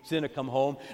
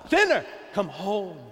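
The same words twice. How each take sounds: First: It is said softly and tenderly. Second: It is shouted loudly. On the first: A gentle, tender plea. "Sometimes softly and tenderly" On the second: An urgent, forceful plea. "sometimes he's shouting"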